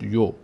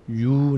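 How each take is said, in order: First: یو as a short "yo"; quick "yo" for یو, not held; short vowel. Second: یو drawn out as "yuu"; slow, lengthened "yuu" for یو; long vowel. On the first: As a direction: say یو briefly, with an "o" sound. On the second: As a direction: hold یو long with an "oo" sound. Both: Shown as a demonstration.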